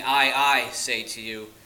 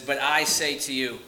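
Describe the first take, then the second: First: Slow, doubled "I, I", each one hit firmly; emphasis on I. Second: Said in the usual way. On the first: Shown as a demonstration. Preacher showing how Jesus emphasizes himself, stressing "I, I". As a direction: lean hard and slowly on "I, I", then ease off. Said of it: "he's showing emphasis on himself". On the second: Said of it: "you miss this in English".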